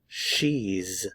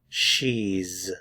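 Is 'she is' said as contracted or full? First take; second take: contracted; contracted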